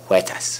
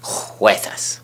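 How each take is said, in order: First: The first sound is light with little throat friction. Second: The first sound is harsh and scraped in the throat. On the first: The speaker calls it right. "There we go" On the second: The speaker calls it wrong. "don't put as much phlegm in your throat as you are"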